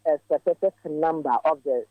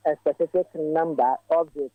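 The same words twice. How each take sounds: The two takes are said the same way.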